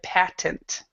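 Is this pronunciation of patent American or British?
American. It is said with an American English pronunciation. "you read American English"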